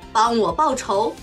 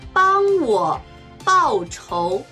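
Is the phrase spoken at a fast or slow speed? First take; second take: fast; slow. First: It is spoken at natural fast speed. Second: It is spoken slowly and deliberately. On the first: "中国語ネイティブスピード1 回" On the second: "中国語ゆっくりスピード1 回"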